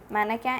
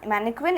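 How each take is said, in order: First: It is said with a French pronunciation. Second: It is said with an English pronunciation. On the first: "mannequin in French" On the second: "mannequin in English"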